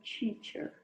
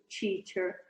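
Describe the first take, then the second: First: It begins with a crisp t sound. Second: It begins with a ch-like hissing sound. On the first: The speaker calls it right. "você encosta a língua ali na região alveolar" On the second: The speaker calls it wrong. "a tua tendência às vezes é falar um tio"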